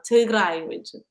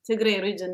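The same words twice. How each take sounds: First: Tigray ends with an 'eye' sound. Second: Tigray ends with an 'ay' sound. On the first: The speaker calls it right. "A I at the end represents I" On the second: The speaker calls it wrong. "that doesn't sound like my country"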